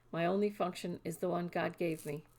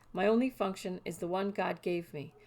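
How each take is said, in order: Both takes have the same delivery.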